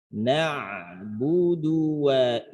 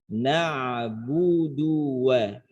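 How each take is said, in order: Both takes have the same delivery.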